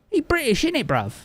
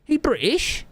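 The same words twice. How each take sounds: First: High London roadman answer, falling tune; mock London slang. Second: High, rising mock question; incredulous question. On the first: Streamer answering chat in mock London slang, falling. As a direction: play it up like a cheeky London lad. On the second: Streamer reading chat's question in a high rising voice. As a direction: squeak it out as a disbelieving question.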